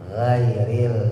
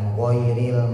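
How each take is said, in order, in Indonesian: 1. Suku kata pertama diucapkan dengan bibir direntangkan. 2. Suku kata pertama diucapkan dengan bibir membulat. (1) "justru harus ditarik" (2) "bukan dimonyongin bibirnya"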